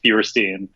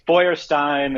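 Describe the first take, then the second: First: The name is said with an American pronunciation. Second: The name is said with a German pronunciation. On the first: This is how it is said in America. "here here in America, it's just" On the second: This is how it is said in Germany. "in the in the motherland"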